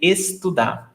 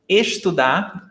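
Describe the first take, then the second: First: It is said in a São Paulo accent. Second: It is said in the speaker's own accent.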